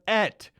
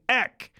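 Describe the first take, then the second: First: The word ends with a t sound. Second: The word ends with a k sound. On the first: The speaker calls it right. "It sounds more beautiful when you say et cetera" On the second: The speaker calls it wrong. "You're saying ek instead of et"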